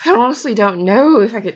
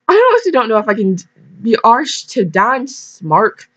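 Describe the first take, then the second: First: Put-on light British accent, a touch louder; mild British accent slipping in; British-sounding attempt. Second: Fast, higher Irish lilt on the line; hammed-up Irish accent; amateur Irish brogue, then slowing; attempted Irish accent. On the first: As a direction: try for Irish, land British. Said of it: "that sounds British". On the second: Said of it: "I'm trying to go for Irish".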